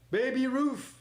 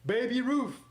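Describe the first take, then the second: No difference in how they are said.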